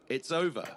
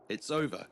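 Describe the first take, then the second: No difference in how they are said.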